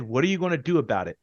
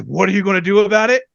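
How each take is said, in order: First: Said in the usual way. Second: Fast, higher, louder challenge; mock heated dare; heated taunt. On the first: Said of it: "like he said in the interview". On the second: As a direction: throw it back like you're ready to swing. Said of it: "If I'm heated and someone says".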